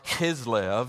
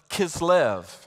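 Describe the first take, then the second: First: The first sound is a rough, guttural k. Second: The first sound is a plain k.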